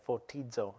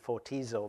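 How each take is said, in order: First: The word is said with a D sound. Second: The word is said without a D sound. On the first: The speaker calls it right. "there is a D sound in there" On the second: The speaker calls it wrong. "it looks like it should be fotizo"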